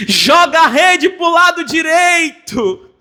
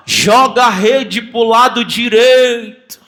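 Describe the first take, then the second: First: Impassioned repeat. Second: Slow called-out command; slow shouted order from the shore; Jesus calling out. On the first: Acted. Preacher repeats Jesus' call. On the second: Retold or imitated. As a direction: call it across the water to the boat. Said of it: "Jesus grita assim".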